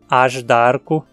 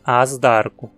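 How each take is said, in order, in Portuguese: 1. O zh soa como o j do português. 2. O zh não soa como o j do português. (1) "temos que dizer AJDARCO" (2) "e não AJDARCO"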